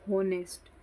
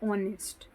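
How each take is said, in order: First: The word starts with an h sound. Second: The word starts with a vowel sound. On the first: The speaker calls it wrong. "बहुत सारे लोग इसको बोलेंगे होनेस्ट, तो ये गलत" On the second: The speaker calls it right. "इसकी सही प्रोनाउंसिएशन क्या होती है?"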